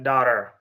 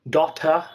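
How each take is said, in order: First: It is said in an American accent. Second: It is said in a British accent. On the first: "Americans say that daughter. American is that is American accent" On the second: "Daughter is it is British"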